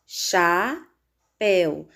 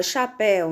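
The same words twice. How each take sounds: First: "chapéu" slow, split as cha... péu; syllable by syllable. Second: Said in the usual way. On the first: Shown as a demonstration. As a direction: break "chapéu" in two with a clear pause. ("chapéu" devagar, sílaba por sílaba: cha... péu) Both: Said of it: "Separando as sílabas".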